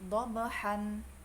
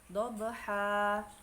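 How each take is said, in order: First: The word ends with an n sound. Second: The word ends with a lengthened a vowel.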